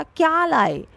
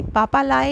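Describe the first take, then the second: First: क्या punched high, लाए falling away; stress on क्या. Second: Said in the usual way. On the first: Shown as a demonstration. Teacher contrasting with the normal words, क्या stressed high. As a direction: put the weight on क्या, high then down. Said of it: "इस चीज़ पे जोर दिए". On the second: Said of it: "ये सब normal था".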